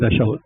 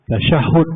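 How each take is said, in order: First: The middle h sound is single and short. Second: The middle h sound is doubled and held. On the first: The speaker calls it wrong. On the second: The speaker calls it right. "masa ada sabdu itu"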